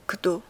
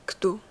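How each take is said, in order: First: «کدو» said loud and clear, d almost like t; Serbian word kdo. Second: «کدو» whispered, d close to a t; whispered kdo. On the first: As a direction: announce «کدو» firmly, d close to a t. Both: Shown as a demonstration.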